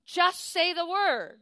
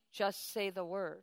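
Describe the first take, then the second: First: JUST hit high and loud, slowed; Just say the word, slow and punched; stress on just. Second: Said in the usual way. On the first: Shown as a demonstration. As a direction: lean hard on the word Just. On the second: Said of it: "When you say Lord".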